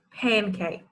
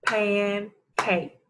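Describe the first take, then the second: First: Said in the usual way. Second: "Pancake" as pan, pause, cake; each syllable of "Pancake" drawn out on its own; clapped syllables. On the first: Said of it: "I will say a word". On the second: Shown as a demonstration. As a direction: break "Pancake" into two separate beats. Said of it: "I will clap the syllables".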